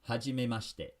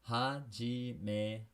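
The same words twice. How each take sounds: First: It is said at regular speed. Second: It is said slowly.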